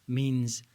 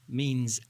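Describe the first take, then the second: Both takes have the same delivery.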